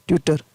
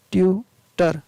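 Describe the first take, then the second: First: Said in the usual way. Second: ट्यूटर slowly, in two separate syllables, "tyu ... tar"; sounded out. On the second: Shown as a demonstration. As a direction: pause between the two halves of ट्यूटर. Teacher splits the word into syllables.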